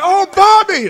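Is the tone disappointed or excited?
excited. It sounds excited and thrilled.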